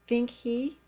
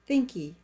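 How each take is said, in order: First: The h sound in 'he' is pronounced. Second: The h sound in 'he' is dropped.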